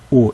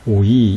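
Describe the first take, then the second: First: The vowel is plain with no final 'ee'. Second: The vowel glides into a final 'ee' sound. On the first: This is the later Koine pronunciation. The speaker calls it right. "그냥 아, 에, 오 이렇게 읽어야 하는 것이죠" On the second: This is the older classical pronunciation. The speaker calls it wrong. "오이로 읽으면 안 돼요"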